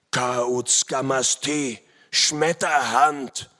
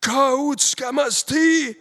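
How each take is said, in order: First: Slow, drawn-out cry of recognition; loud startled call. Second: Very high, loud, drawn-out cry; warriors' cry. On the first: Enemy warrior recognising Schmetterhand, slow loud call. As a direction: call the name out loud, very slowly. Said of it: "rief er laut". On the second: Enemy warriors recognising the hero, high drawn-out cry. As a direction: cry the name out long and high. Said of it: "riefen die Indsmen zaudernd". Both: A narrator's reading.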